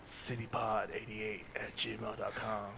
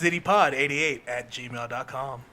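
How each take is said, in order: First: It is said in a put-on character voice. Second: It is said in his normal speaking voice.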